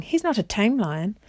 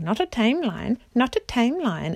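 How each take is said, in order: First: Said in the usual way. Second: High, mocking playground chant; jeering sing-song. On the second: A narrator's reading. Dwarfs repeating the king's words, in jeering sing-song. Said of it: "in a jeering sing-song".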